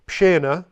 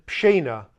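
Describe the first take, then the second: First: "Pshena" 重读，尾音上扬; 加重念 "Pshena"; stressed variant. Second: "Pshena" 按字面念，尾音下降; 照写法念 "Pshena"; as written. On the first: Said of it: "some villages will stress this a little bit more". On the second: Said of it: "or as it's written". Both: Shown as a demonstration.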